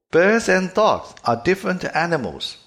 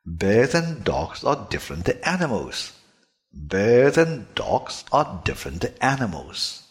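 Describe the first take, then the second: First: "Birds and dogs are different animals" high and loud, with p, t, k in place of b, d, g; "Birds and dogs are different animals" with b, d and g devoiced; "Birds and dogs are different animals" the wrong way, with voiceless consonants. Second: "Birds and dogs are different animals" with the vocal cords buzzing on b, d and g; "Birds and dogs are different animals" read correctly, with fully voiced consonants. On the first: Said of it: "又是清辅音了". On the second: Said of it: "这样才是浊辅音". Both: Shown as a demonstration.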